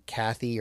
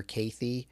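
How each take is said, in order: First: "Cathy" with a short a, as in cat; first pronunciation of Cathy. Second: "Cathy" with a long a, KAY-thee; alternative pronunciation of Cathy. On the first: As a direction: say "Cathy" like the common first name. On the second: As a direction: say "Cathy" so it starts like Kate. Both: Shown as a demonstration. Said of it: "Cathy or Cathy".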